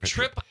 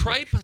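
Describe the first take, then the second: First: The vowel is short, like in 'tip'. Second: The vowel is long, like in 'pipe'. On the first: The speaker calls it right. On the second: The speaker calls it wrong.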